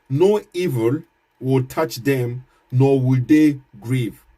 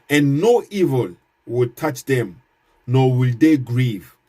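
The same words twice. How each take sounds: First: Slow, with "No" and "they" leaned on hard; emphasis on no evil. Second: Slow verse reading. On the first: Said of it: "This is my emphasis here". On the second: Reads Quran verse aloud. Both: Shown as a demonstration.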